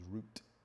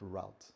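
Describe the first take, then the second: First: The word has a British pronunciation. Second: The word has an American pronunciation. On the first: The speaker calls it right. "the proper pronunciation is route" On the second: The speaker calls it wrong. "not route"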